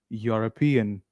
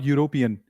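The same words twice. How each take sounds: First: The main stress is on the third syllable. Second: The main stress is not on the third syllable. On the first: The speaker calls it right. "It is European" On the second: The speaker calls it wrong. "not European"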